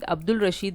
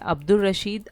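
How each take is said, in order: First: The 'l' sound is clearly pronounced before 'Rashid'. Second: The 'l' sound merges into the following 'r'. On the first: The speaker calls it wrong. "नहीं पढ़ेंगे हम इसे" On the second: The speaker calls it right. "लाम का तलफ़ुज़ जो है उसी हुर्फ की आवाज़ में बदल जाता है"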